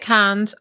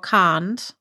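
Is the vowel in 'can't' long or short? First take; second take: short; long. First: The vowel in the word is short. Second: The vowel in the word is long. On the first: "the American version" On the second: "long vocal"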